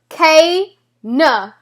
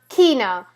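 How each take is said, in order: First: The first syllable has an ah vowel. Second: The first syllable has an ee vowel. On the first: The speaker calls it right. "they wrote it's pronounced Kana" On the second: The speaker calls it wrong. "I keep calling Kana Kina"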